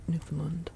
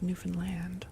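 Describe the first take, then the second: First: The final syllable land is slurred and reduced. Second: The final syllable land is fully pronounced. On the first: The speaker calls it wrong. "we can't, you know, properly pronounce land" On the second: The speaker calls it right. "you're supposed to really pronounce the word land at the end"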